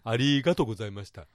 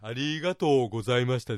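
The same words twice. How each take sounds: First: The 'to' sound is kept short. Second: The 'to' sound is held long. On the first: The speaker calls it right. "ありがとうございましたの方がいいと思います" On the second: The speaker calls it wrong. "ありがとうのととね、これ伸ばさない方がかえっていいです"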